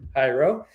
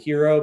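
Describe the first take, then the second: First: The first syllable sounds like "high". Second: The first syllable sounds like "here". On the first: The speaker calls it right. "it's actually Hyro, as in hieroglyphic" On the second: The speaker calls it wrong. "sometimes people pronounce it hero"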